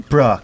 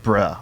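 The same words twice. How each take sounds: First: A mildly confused "bruh"; understated puzzlement on a single word. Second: A low, mildly apologetic "bruh"; understated sheepish apology, pitched down. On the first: Castmate recalling the casting notes' eight bruhs, mildly confused. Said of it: "Bruh, confused". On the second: Castmate recalling the casting notes' eight bruhs, apologetic. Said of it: "bruh, apologetic". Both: Shown as a demonstration.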